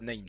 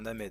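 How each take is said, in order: First: The word is pronounced with English sounds. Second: The word is pronounced with French sounds. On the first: The speaker calls it wrong. "On dit pas named. C'est interdit" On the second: The speaker calls it right. "on prononce à la française"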